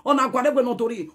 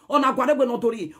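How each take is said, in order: Both takes have the same delivery.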